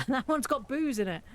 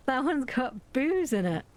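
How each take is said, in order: First: Giggling through the words; laughing. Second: Said in the usual way. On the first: Real, not acted. Gamer laughing at a boozy recipe, giggling. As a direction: laugh it out, amused.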